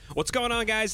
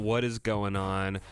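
First: It is said with lively, high energy. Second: It is said with low, sleepy energy.

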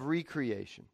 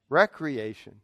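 First: It is said as re-creation, stressing 'creation'. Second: It is said as recreation, stressing the first syllable. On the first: Creating something anew. "The agent of recreation" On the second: Leisure that revitalizes oneself. "you could pronounce that word another way"

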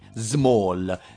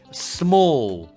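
First: The first sound is a buzzing z. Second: The first sound is a long hissing s. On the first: The speaker calls it wrong. "voi vostra S sembra una Z a noi" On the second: The speaker calls it right. "sempre S lunga"

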